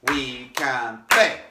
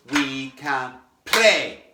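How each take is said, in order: First: Slow, "play" hit stronger; "We can play" chanted, accent on "play". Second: "we can play" slow, with "play" hit harder; accent on play. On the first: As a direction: give "play" a wee extra poke. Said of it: "Give it a wee bit more". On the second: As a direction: play hit a bit stronger. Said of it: "we're gonna do that on the words". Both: Shown as a demonstration.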